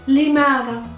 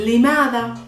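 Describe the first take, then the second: Both takes have the same delivery.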